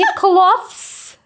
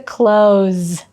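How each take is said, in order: First: It is pronounced in a Ukrainian-style way. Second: It is pronounced in a native English way. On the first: The speaker calls it wrong. "Це не clothes" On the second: The speaker calls it right. "Це clothes"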